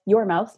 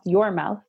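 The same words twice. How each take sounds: First: "your" hit hard and held; stress on your. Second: "your" pressed firmly once more; stress on your again. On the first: Host to moms, stressing whose mouth gets the tape. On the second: Host repeats to moms, stressing whose mouth gets the tape. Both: Real, not acted. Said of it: "not your children's mouth".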